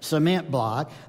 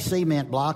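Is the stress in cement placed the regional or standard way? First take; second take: standard; regional. First: The stress in cement is placed the standard way. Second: The stress in cement is placed the regional way. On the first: The speaker calls it right. "I have to make sure that I get the emphasis on the right syllable" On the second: The speaker calls it wrong. "Otherwise, if I say cement block and the president ever hears that, I'll never hear the end of it"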